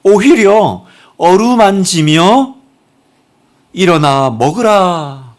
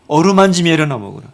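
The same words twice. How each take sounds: First: 어루만지며 일어나 먹으라 drawn out very slowly, 오히려 stretched on a rising tune; slow, tender emphasis. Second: Said in the usual way. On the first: Shown as a demonstration. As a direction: linger on each word of 어루만지며 일어나 먹으라. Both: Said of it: "하나님 어떻게 하세요?".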